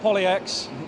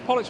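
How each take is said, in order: First: It is said as poly plus letter X. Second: It is said as one single word. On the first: The speaker calls it wrong. "not Poly X" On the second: The speaker calls it right. "It's Pollux with a P"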